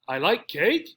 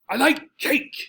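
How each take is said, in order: First: The voice rises at the end like a question. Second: It is said in a lively, excited tone. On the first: The speaker is unsure or confused about the fact. "Here our voice goes up at the end" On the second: The speaker is thrilled about the fact. "Here I'm excited. I'm telling you in a very excited tone"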